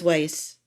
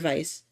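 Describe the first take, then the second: First: The name begins with a W sound. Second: The name begins with a V sound. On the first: This is how the name is said on the show. "they pronounce it Weiss on the show" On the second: This is the German way to say the name. "I always slip up and call her Vice"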